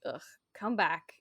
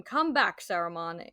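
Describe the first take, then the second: First: Said in the usual way. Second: Sharp commanding call, not a casual "come back". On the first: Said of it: "Gandalf is just like". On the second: Retold or imitated. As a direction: call him back like a wizard who will be obeyed. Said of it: "Gandalf said in a commanding voice".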